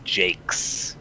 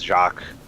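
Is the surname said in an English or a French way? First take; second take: English; French. First: The name is said the English way. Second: The name is said the French way. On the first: "they're all Americans who were pronouncing it as Jakes" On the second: "which is like a French pronunciation"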